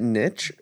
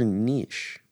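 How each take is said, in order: First: Niche rhyming with "pitch"; niche as "nitch". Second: Niche rhyming with "leash"; niche as "neesh". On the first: Asking co-hosts which is right, niche said "nitch". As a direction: say niche with short i and a tch. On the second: Asking co-hosts which is right, niche said "neesh". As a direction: say niche with long ee and soft sh. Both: Shown as a demonstration. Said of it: "Is it niche or niche?".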